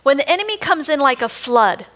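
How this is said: There is a pause after 'flood' only.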